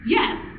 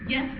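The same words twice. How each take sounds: First: The pitch rises on the word. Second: The pitch stays level on the word.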